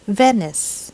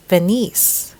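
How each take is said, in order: First: Venice as VEN-iss; stress on first syllable. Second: Venice as ve-NEES; stress on second syllable. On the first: Teacher models correct accent, Venice as VEN-iss. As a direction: hit the VEN of Venice, light second syllable. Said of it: "accent should be on the first syllable". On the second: Teacher shows the common error, Venice as ve-NEES. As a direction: push the end of Venice, ve-NEES. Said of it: "they would normally say". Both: Shown as a demonstration.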